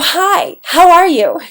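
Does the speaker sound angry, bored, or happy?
happy. It is said in a happy, cheerful tone. The person is glad to see you. "somebody's happy and they go"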